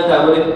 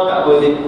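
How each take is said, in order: Both takes have the same delivery.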